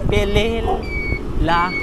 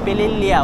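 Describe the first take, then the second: First: The last syllable is plain la, no y glide. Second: The last syllable is lya, with a y glide. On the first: This follows the written spelling. "Hindi ko alam paano basahin yan eh" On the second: This is what the locals call it. "Pililya kasi tawag nila"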